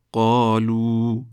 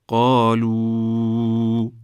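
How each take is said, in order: First: قالو with a short plain final "u" at the stop; teacher says قالو briefly, no stretch; pausal form. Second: قالو drawn out very slowly, as in continuous recitation; teacher chants قالو slowly and louder; joined form. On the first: Teacher shows students the stop reading of the word. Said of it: "در هنگام وقف به شکل". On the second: Teacher shows students the joined reading of the word. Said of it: "در هنگام وصل به شکل". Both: Shown as a demonstration.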